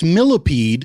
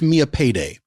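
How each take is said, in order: First: The name sounds like the word millipede. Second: The name sounds like the words Mia Payday. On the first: The speaker calls it wrong. "A lot of people think it's pronounced millipede" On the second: The speaker calls it right. "But it's pronounced Mia Payday"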